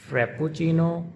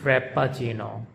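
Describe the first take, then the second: First: Frappuccino with doubled p and a clear oo: frap-poo-chee-no; Italian frappuccino, stretch the pp, round oo. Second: Frappuccino with single short p and a schwa: frap-a-chino; English frappuccino, light p, unstressed uh. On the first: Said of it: "the Italian way to pronounce it". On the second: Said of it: "the English way is". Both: Shown as a demonstration.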